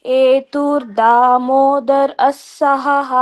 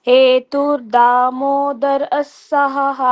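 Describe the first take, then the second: No difference in how they are said.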